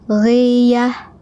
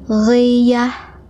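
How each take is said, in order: The two takes are said the same way.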